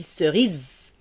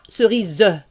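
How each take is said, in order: First: The final e is silent. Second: The final e is pronounced as a vowel. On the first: The speaker calls it right. "je dis cerise" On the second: The speaker calls it wrong. "je ne dis pas cerise"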